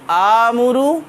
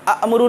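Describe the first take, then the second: First: It begins with a smooth long vowel. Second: It begins with a sharp glottal catch. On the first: The speaker calls it right. "बल्कि आमुरु" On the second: The speaker calls it wrong. "अमुरु नहीं"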